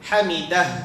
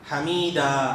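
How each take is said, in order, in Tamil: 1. இந்த வார்த்தை கேட்கக்கூடிய 'h' ஒலியுடன் முடிகிறது. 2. இந்த வார்த்தை திறந்த நீண்ட உயிரெழுத்தில் முடிகிறது. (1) "அந்த ஹாவை நம்ம வக்ஃப் செய்யும் போது ஹமீதஹ் அப்படின்னு சொல்லி சொல்லணும்" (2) "நிறைய பேர் சொல்றது எப்படின்னா"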